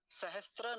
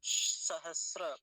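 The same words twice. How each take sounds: First: सहस्त्र said sahastra, with t; wrong form. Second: सहस्र very slow, loud long s, no t; correct form. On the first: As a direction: insert t before ra in सहस्त्र. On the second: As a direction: stretch the sibilant into ra in सहस्र. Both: Shown as a demonstration. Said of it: "सहस्त्र नहीं बोलेंगे".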